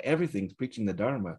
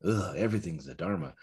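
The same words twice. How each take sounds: First: A touch of sugar and syrup, lifted and bright; syrupy sweet. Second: Mild exasperated groan on ugh, flat and weary; eye-rolling. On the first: Teacher demonstrating a sugary take to students, lightly syrupy. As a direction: lay a little sugar on it, gently gushing. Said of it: "adds a little more sugar and, uh, syrup". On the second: Teacher showing the scornful version of the phrase, mildly disgusted. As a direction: say it as if rolling your eyes, tired of it. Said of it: "if I say it like that". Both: Shown as a demonstration.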